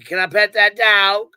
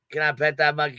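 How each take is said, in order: First: Higher, louder, slow put-on voice; mock innocent ask. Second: Said in the usual way. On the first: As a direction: ask it loudly, playing dumb. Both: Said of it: "walk up to Justin and say".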